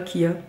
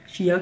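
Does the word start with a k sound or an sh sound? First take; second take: k sound; sh sound. First: The word begins with a k sound. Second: The word begins with an sh sound. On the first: "sinon Kia ça va faire penser à la voiture" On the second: "Je dirais des graines de chia"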